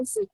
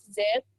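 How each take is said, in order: First: Z as a short "zeh" sound, not "zet"; letter sound of Z. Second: Said in the usual way. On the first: Shown as a demonstration. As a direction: sound out Z briefly. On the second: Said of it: "huruf Z".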